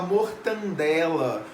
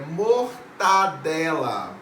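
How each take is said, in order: First: A nasal n sound comes before the d. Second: No nasal sound comes before the d. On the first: The speaker calls it wrong. "Muita gente fala mortandela" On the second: The speaker calls it right. "É mortadela"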